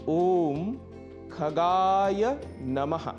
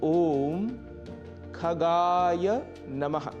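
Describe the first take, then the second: No difference in how they are said.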